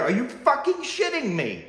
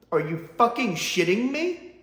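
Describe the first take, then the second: First: High, punching fucking hard; exaggerated disbelief. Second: Rising disbelief, said straight; first exasperated take. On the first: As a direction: lean on "fucking" and drop the tune at the end. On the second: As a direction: blurt it out once, rising at the end. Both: Shown as a demonstration. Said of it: "but I have to here".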